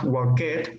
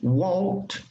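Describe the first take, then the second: First: The ending adds an extra syllable. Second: The ending is a plain t sound. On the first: The speaker calls it wrong. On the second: The speaker calls it right.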